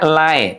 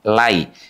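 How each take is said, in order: First: The diphthong does not end in a clear i. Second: The diphthong ends in a clear i sound. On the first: The speaker calls it wrong. "Tidak lai" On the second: The speaker calls it right. "identik dengan bunyi i"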